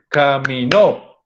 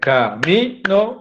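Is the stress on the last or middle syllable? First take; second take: last; middle. First: The stress is on the last syllable. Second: The stress is on the middle syllable. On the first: "depende de donde esté el acento, cambia el sentido de la palabra" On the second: "En mi, eso, muy bien"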